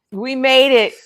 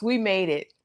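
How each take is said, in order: First: Louder, triumphant repeat; excited. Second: Said in the usual way. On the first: Shown as a demonstration. Cheering the survivors, louder and excited. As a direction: celebrate it.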